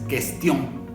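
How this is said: It is pronounced the French way, nasal ending. The speaker calls it right. "es cuestión"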